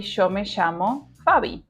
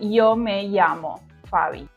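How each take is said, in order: First: The ll sounds like an English sh. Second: The ll sounds like an English y. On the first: This is how it is said in Rioplatense Spanish. "we produce this S H sound like in show" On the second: This is how it is said in Spain or Mexico. "In Spain or in Mexico, they pronounce with a E sound"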